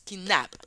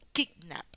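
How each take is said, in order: First: The stress is on the second syllable. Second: The stress is on the first syllable. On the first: The speaker calls it wrong. "No decimos kidnap. Mm, mm, no decimos así" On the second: The speaker calls it right. "la sílaba tónica es la primera"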